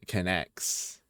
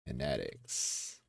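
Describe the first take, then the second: First: The name is said like 'connects'. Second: The name is said like 'kinetics'. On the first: The speaker calls it right. "it's c- connects" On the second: The speaker calls it wrong. "I've been mispronouncing the entire time"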